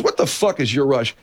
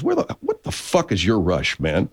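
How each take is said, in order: First: Higher, blunt disbelieving question; sergeant's retort. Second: Slow, laughing through the words; sergeant's retort. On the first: The sergeant challenging the colonel, a bit higher, blunt. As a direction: fire it off straight and exasperated. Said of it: "He goes". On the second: Retelling the sergeant's blunt line to the colonel with a laugh. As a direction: chuckle out the disbelieving question. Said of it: "the sergeant says". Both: Retold or imitated.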